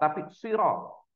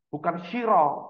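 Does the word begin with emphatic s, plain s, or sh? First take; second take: emphatic s; sh. First: The first consonant is an emphatic heavy s. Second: The first consonant is a sh sound. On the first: The speaker calls it right. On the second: The speaker calls it wrong. "tidak bisa membedakan antara shin dan sod"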